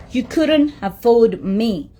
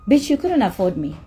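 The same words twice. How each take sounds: First: Couldn't dragged out slowly and leaned on; slow emphatic repeat. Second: Said in the usual way. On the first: Shown as a demonstration. Repeating the put-down to the promoter, slow and emphatic. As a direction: spell out "couldn't" slowly so it lands.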